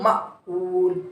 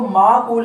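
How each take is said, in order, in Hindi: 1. पहले स्वर के बाद ग्लोटल स्टॉप आता है। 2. लंबा स्वर, बिना ग्लोटल स्टॉप के। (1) "इस पे जज़म है तो ये हमजा होगा" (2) "हमने इस लफ्ज़ को माकूल नहीं पढ़ना"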